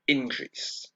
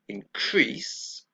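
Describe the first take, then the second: First: The stress is on the first syllable. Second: The stress is on the second syllable. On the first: It is used as a noun. "The stress is on the first syllable" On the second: It is used as a verb. "The stress is on the second syllable"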